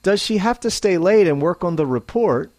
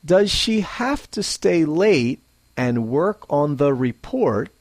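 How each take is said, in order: First: Fast "Does she have to stay late and work on the report?" with "have to" blended; reduced forms. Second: Slow, full "Does she have to stay late and work on the report?"; careful "Does she have to stay late and work on the report?"; slowly and clearly. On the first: Teacher models natural speech, fast and reduced. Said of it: "second, at a normal pace". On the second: Teacher models careful speech, slowly and clearly. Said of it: "First, slowly". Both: Shown as a demonstration.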